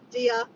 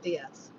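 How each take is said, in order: First: The word ends without an s sound. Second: The word ends with an s sound. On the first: The speaker calls it right. "Dia del Muerto" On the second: The speaker calls it wrong. "Not Diaz"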